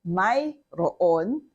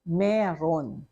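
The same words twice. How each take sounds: First: "mayroon" slowly as may-ro-on; spelled-out pronunciation. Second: "meron" said meh-ron; conversational pronunciation. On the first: Teacher naming the written word to learners, sounded out slowly. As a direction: separate every syllable of "mayroon". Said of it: "the way to pronounce". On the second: Teacher showing common conversation form, properly pronounced. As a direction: run "meron" into two clear syllables. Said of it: "you pronounce it as". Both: Shown as a demonstration.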